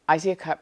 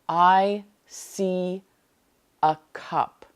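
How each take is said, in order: First: The words are slack and run together. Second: Each word is crisp, vibrant and forceful. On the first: The speaker calls it wrong. "you're not saying" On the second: The speaker calls it right. "Put intention into this practice. Enunciate each word. Use a powerful voice"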